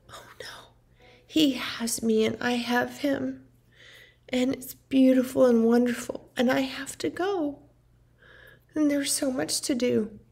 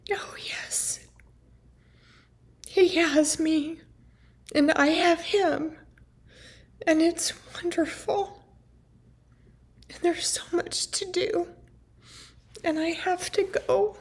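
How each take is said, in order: First: Lightly imitated mom, mostly whispered; mom's sing-song voice. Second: Lightly imitated mom, higher and soft, half-whispered; mom's sing-song voice. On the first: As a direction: hush it the way she said it. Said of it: "exactly what she said and how she said it". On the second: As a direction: echo her airy sing-song, a bit higher. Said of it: "was like a singing song".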